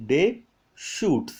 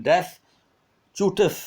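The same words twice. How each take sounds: First: Deschutes said as day-SHOOT, both S sounds silent; correct pronunciation. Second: Deschutes with both S sounds said, DES-chu-tes; wrong pronunciation. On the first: Teacher modelling the correct Deschutes, silent S. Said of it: "Deschutes, S is silent". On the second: Teacher warning students against sounding Deschutes letter by letter. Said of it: "ये ऐसा कुछ मत बोलना उसको". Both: Shown as a demonstration.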